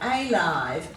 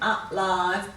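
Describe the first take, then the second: First: The first vowel is a long 'ay' sound. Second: The first vowel is a weak 'uh' sound. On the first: "we should be giving it a long sound" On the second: "let's read them as we say them"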